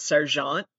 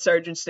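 First: "Sargent" said as if French, stress on the last syllable; mistaken French pronunciation. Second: Said in the usual way. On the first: Retold or imitated. Speaker trying out an artist's name, "Sargent" mispronounced as French. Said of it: "and then it's not". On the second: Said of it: "I try to pronounce Sargent's name".

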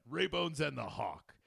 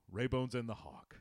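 First: Slow, loud announcer voice; radio announcer. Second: Said in the usual way. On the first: Pretend. Host hyping the show name, announcer style. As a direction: boom it out like a radio intro. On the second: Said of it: "repeated as radio show".

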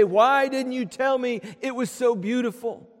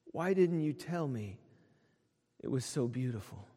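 First: Bright, ringing cry of wonder; amazed. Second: Put-on a soft, awed child's question, much quieter; hushed wonder. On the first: Pretend. Believers seeing heaven's glories, crying out in open amazement. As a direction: let the amazement burst out. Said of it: "we're gonna gasp with absolute amazement". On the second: Boy to his parents, seeing colors for the first time, hushed and awed. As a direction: breathe it out in quiet amazement.

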